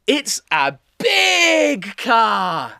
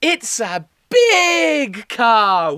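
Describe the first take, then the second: First: It's a big car slowed, with a falling tune on big; slow model phrase. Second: It's a big car slowed, big stressed; slow model phrase. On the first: Teacher modelling the phrase for children, slow and stressed. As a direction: stretch big for the children to repeat. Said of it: "So say it with me". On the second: Teacher repeating the phrase for the class, slow and stressed. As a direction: lean on big again, slowly. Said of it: "And again". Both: Shown as a demonstration.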